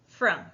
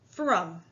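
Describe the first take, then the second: First: It is said in a normal voice. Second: It is said in a deep grown-up voice.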